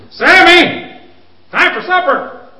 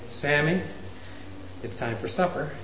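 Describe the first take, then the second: First: Much louder and higher, getting impatient; louder call. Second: Softer, calm, even call; just say it once, quietly and calm. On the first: Parent calling child a second time, louder. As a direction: call him again, voice climbing. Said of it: "until your voice is way up here". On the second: Parent calmly calling child to supper once. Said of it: "Why can't we say". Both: Shown as a demonstration.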